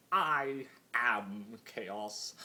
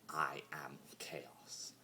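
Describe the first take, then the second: First: "I am chaos" slow and louder, the "I" rising; grand declaration. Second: Slow whispered "I am chaos", barely voiced. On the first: Acted. Discord declaring what he is, slow and louder. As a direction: proclaim it like a title. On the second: Discord quietly admitting what he is, slow whisper. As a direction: let it fall empty in a whisper. Repeats the declaration hollowly.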